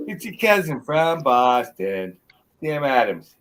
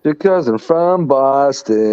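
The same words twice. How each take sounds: First: Slow, louder Boston accent. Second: Slow, drawn-out Boston accent try; attempted Boston accent. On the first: Correcting friend's try, slow louder Boston accent. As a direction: show how the Boston accent really goes. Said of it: "Yeah, close, exactly". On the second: Repeating the friend's Boston slogan, slow Boston accent. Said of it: "Yeah, close". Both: Shown as a demonstration.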